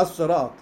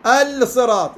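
First: "الصراط" as as-sirat; lam merged into sad. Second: "الصراط" as al-sirat, clear l; higher and louder, sound the l in "الصراط"; unmerged l before s in "الصراط"; lam sounded, wrong. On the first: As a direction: silent l, doubled s in "الصراط". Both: Shown as a demonstration. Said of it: "لا، ما تلفظ".

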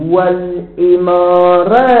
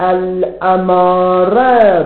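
First: والإمارة said "wal-imāra"; والإمارة with an i-vowel after the article; kasra on hamza. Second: الأمارة said "al-amāra"; الأمارة with an a-vowel after the article; fatha on hamza. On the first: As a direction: give the hamza in والإمارة a short "i". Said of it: "بكسر الهمزة". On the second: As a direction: give the hamza in الأمارة a short "a". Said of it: "بالفتح". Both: Shown as a demonstration.

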